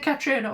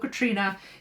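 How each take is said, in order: First: The name is said as it is spelled. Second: The name is said to sound like 'Katrina'. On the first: "it's spelt like Catriona" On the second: "I've heard it pronounced Katrina"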